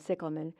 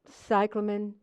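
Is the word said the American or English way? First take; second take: English; American. First: It is said in an English way. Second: It is said in an American way.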